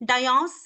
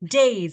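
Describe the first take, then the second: First: It is said as two syllables, dai-as. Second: It is said as one syllable, like days. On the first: The speaker calls it wrong. "డయాస్ కాదు" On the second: The speaker calls it right. "It's called as డేస్"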